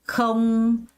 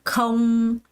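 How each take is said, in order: No difference in how they are said.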